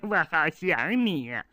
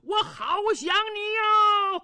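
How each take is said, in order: First: It is said in a low, quiet voice. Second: It is said in a loud, shouting voice.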